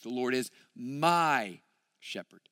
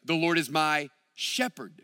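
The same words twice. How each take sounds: First: The word my carries the main stress. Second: The word Lord carries the main stress. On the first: Each person must make this choice personally. "David reminds us this is a personal decision" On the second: The Lord is allowed to lead and rule. "But then you could say it this way"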